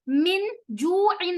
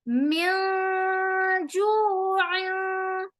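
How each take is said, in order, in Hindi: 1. "n" ध्वनि पूरी तरह और स्पष्ट रूप से बोली जाती है। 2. "n" ध्वनि नासिक गुंजन में छिपी होती है। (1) "अब यहाँ हम ऐसे नहीं पढ़ेंगे" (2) "नून को हम छुपा देंगे"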